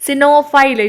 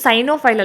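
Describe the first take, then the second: First: The first syllable has a short 'i' vowel. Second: The first syllable has a long 'ai' vowel. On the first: The speaker calls it right. "ಸಿನೋಫೈಲ್ ಅಂತ ಹೇಳಿ ಕರಿತೀವಿ" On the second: The speaker calls it wrong. "ಇದು ಸೈನೋಫೈಲ್ ಅಲ್ಲ"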